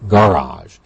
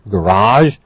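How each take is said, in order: First: The stress is on the first syllable. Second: The stress is on the second syllable. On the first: This is the anglicized form. "anglicized with a stress on the first part of the word" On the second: This is the original French form. "we have borrowed a lot of words from French"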